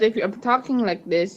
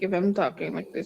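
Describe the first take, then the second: First: The words are spoken clearly and distinctly. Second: The words are mumbled and hard to make out. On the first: The speaker calls it right. "you will understand what I'm saying" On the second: The speaker calls it wrong. "If I'm mumbling, it means like I'm saying words that is not clear"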